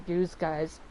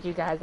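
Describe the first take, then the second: First: "use guys" with a z sound in "use"; "use guys", first word rhyming with "news"; grandparents' dialect. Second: Said in the usual way. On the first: Shown as a demonstration. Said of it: "Like my grandparents use guys". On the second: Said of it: "are use guys".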